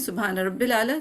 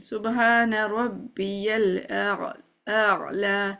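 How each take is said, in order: First: Rabbi runs straight into 'l' without a 'ya' sound. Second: Rabbi is followed by a clear 'ya' sound. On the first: The speaker calls it wrong. "हम कहते हैं" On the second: The speaker calls it right. "Actually क्या है"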